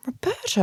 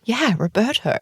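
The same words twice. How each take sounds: First: High, soft, baffled question on ROBERTO; blank puzzlement. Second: Higher-pitched "Yeah", as if it's obvious; prompting confirmation. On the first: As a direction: imitate someone drawing a total blank on "Roberto". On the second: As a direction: repeat ROBERTO to jog their memory. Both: Retold or imitated. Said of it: "she just looks at me completely blankly".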